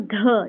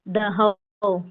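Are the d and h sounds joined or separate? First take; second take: joined; separate. First: The d and h are joined in one sound. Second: The d and h are said as separate sounds. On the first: The speaker calls it right. "इसका sound भी एक निकालना है" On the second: The speaker calls it wrong. "ऐसा नहीं"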